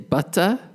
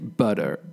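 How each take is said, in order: First: The middle consonant is a strong T sound. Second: The middle consonant is a soft D sound. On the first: This is the British pronunciation. "I would say butter" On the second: This is the American pronunciation. "American people would say butter"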